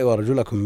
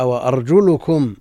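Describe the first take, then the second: First: وأرجلكم with an a after the lam, "wa-arjulakum"; fatha reading. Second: وأرجلكم slowly, with a u after the lam, "wa-arjulukum"; damma reading. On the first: Teacher repeats Nafi's reading, وأرجلكم with "la". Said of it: "بالنصب". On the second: Teacher shows al-Walid's variant, وأرجلكم with "lu", slowly. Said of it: "بالرفع". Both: Shown as a demonstration.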